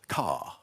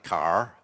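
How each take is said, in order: First: The word ends with no R sound. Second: The word ends with a smooth R sound. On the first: "in R P" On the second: "like the West Country speak"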